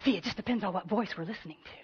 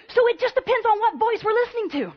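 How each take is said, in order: First: Softer and quicker, drawing them in; soft, quick repeat. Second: Emphatic. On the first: Preacher repeating her key line to the congregation, soft and quick. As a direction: let the line drop low and hurry it. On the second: Preacher repeats the key line. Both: Acted.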